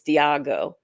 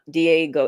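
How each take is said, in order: First: The name is said like 'Diago'. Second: The name is said like 'Diego'. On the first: The speaker calls it right. "it's Diago" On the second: The speaker calls it wrong. "he's pronouncing it wrong. It's not Diego"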